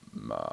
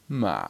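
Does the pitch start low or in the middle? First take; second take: low; middle. First: The pitch starts low and stays low. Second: The pitch starts mid and falls low. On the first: The speaker calls it wrong. "So it doesn't start like ma, it's not always low" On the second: The speaker calls it right. "it starts slightly above, starts sort of like in the middle somewhere"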